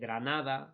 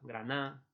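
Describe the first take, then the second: First: The word ends with a full -ada syllable. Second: The d and final vowel are dropped.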